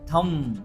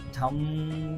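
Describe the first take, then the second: First: The word ends on m, no b sound. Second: The final b sound is pronounced. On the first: The speaker calls it right. "पण याचा उच्चार असाच आहे" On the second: The speaker calls it wrong. "इथे हे ब तुम्हाला समजण्यासाठी मी उच्चार करायलो"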